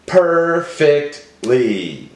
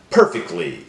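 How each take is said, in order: First: "Perfectly" slowly in three separate pieces; broken into syllables. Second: Said in the usual way. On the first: Shown as a demonstration. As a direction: say "Perfectly" as per, fect, ly, with gaps. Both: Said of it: "Break it up".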